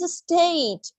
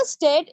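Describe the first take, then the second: First: "state" with a long gliding "ay"; American "state". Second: "state" with a short pure e, "stet"; wrong "state". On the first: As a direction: draw out the vowel of "state" as "ay". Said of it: "In American it sounds like a state". ("state" में लंबा "एइ" बोलते हुए) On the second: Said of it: "It's not a state". ("state" को छोटा "स्टेट" बोलते हुए) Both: Shown as a demonstration.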